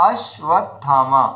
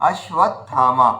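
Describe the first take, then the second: No difference in how they are said.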